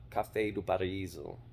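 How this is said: It is said with a Portuguese accent.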